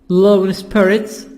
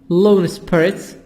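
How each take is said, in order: No difference in how they are said.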